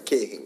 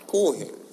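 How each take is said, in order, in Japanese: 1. 最初の母音は長いeだ。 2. 最初の母音は長いoだ。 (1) "俺たちはケーヘンかな。大阪はちょっと強めかな。" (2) "神戸弁で喋って"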